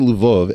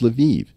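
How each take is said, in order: First: The name ends with an 'ov' sound. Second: The name ends with an 'iv' sound. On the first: This is the older name the speaker prefers. "if I say Lvov" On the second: This is the form others insist on. "everyone's going to correct me and say, no, [name], it's Lviv"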